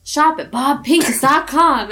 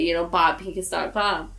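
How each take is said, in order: First: High, bright pitchman voice; ad announcer voice. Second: Said in the usual way. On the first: Retold or imitated. Friends mocking a radio ad, high announcer voice. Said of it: "he'd go". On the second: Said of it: "then they would say it".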